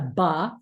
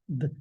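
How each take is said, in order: First: The b sound is followed by an uh vowel. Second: The b sound is clipped with no vowel. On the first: The speaker calls it wrong. "instead of saying um, a ba for a B" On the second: The speaker calls it right. "That's a good pronunciation of the sound for B"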